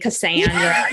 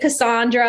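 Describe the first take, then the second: First: The name is said with a nasal Michigan accent. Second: The name is said with a Southern accent. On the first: "I'm from like Michigan, so I got to have that nasally Cassandra" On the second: "When I'm in the South, everyone says Cassandra"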